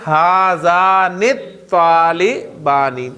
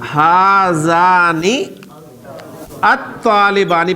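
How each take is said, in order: First: The two words run together, article sound dropped. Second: The two words are said separately, article sounded. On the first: "अलिफ लाम को खत्म कर दे" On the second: "पहले अलिफ लाम के साथ बोले"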